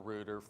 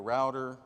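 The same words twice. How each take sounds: First: Router is said with a British pronunciation. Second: Router is said with an American pronunciation.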